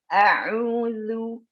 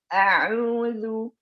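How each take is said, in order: First: The lips round after the consonant is formed. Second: The same.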